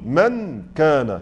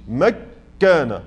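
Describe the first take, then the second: First: The n is pronounced fully and clearly before k. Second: The n disappears into a doubled k sound. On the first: "لو أردت أن أنطق بالنون مظهرة ... سأسمع النون كاملة" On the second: "ما قلتش مكان، هو ده الإدغام"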